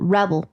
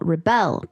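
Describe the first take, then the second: First: The stress is on the first syllable. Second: The stress is on the second syllable. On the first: It is used as a noun. "whenever it's a noun on the first syllable" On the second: It is used as a verb. "Whenever it's a verb, putting the word stress on the second syllable"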